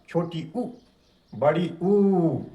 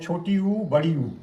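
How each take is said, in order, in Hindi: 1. दूसरा स्वर साफ़ तौर पर ज़्यादा देर तक बोला जाता है। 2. दोनों स्वर एक जितनी देर तक बोले जाते हैं।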